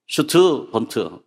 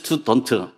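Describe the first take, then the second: First: It starts with a sh sound. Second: It starts with a plain s sound. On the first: "S가 슈가 되느냐" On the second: "S는 S니까 스튜던트가 돼야지"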